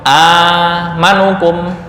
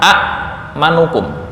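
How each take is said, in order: First: The first vowel is one long a sound. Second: A short a is followed by a glottal stop. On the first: This is how the word is actually read. "Qala hal amanukum" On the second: This is the word's underlying original form. "asalnya adalah"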